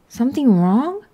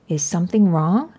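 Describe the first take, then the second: First: SOMETHING WRONG pitched higher, rising at the end; echoed question. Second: SOMETHING WRONG as an ordinary question, gently rising; concerned question. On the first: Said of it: "Was it ever". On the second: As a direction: ask "something wrong" at normal pitch, rising at the end. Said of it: "said Mom". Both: A narrator's reading.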